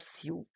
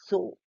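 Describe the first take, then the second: First: The word does not rhyme with 'go'. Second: The word rhymes with 'go'. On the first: The speaker calls it wrong. "and not sew" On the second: The speaker calls it right. "the pronunciation is so"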